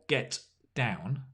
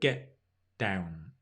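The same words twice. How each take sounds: First: The T in get is fully released. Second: The T in get is a glottal stop. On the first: The speaker calls it wrong. "Notice it's not get down" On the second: The speaker calls it right. "it's a glottal stop. We kind of go get down"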